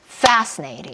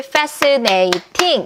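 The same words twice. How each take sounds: First: The first syllable is stressed and drawn out. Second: All four syllables are even in length. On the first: The speaker calls it right. "이렇게 소리를 내셔야지" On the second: The speaker calls it wrong. "이러시면 안 돼요"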